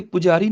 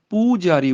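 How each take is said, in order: First: ਪੁਜਾਰੀ with a short u; wrong short vowel. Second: ਪੂਜਾਰੀ with a long, held oo; long vowel. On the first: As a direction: say ਪੁਜਾਰੀ quickly, first vowel cut short. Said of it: "ਇੱਥੇ ਪੁਜਾਰੀ ਨਹੀਂ ਬੋਲਣਾ". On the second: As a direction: stretch the first syllable of ਪੂਜਾਰੀ. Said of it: "ਪੂਜਾਰੀ ਬੋਲਣਾ ਹੈ". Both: Shown as a demonstration.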